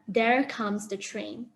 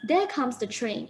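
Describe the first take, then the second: First: The word 'there' ends with an r sound. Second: The word 'there' ends without an r sound. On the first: The speaker calls it wrong. "instead of" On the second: The speaker calls it right. "in British English you will pronounce it as"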